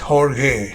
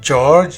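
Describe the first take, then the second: First: The name is said with a Portuguese pronunciation. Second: The name is said like the English name. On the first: The speaker calls it right. "it's Jorge. Yeah, it's Portuguese" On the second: The speaker calls it wrong. "it's not George"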